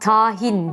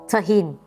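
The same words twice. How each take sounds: First: A vowel in the word is drawn out long. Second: All vowels in the word are kept short. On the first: The speaker calls it wrong. "Uzatılmayıp kısa söylenmesi gereken" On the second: The speaker calls it right. "kısa söylenmesi gereken"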